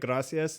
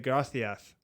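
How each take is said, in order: First: The middle consonant is an s sound. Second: The middle consonant is a th sound. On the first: This is how it is said in Mexican Spanish. "instead of gracias" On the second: This is how it is said in Spain. "They say it with a, a, a T H"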